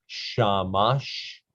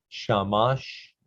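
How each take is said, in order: The two takes are said the same way.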